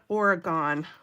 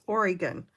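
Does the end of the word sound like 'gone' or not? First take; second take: gone; not gone. First: The final syllable sounds like the word 'gone'. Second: The final syllable does not sound like 'gone'. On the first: The speaker calls it wrong. "not Oregon. We're still here. We're not gone" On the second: The speaker calls it right. "It's Oregon"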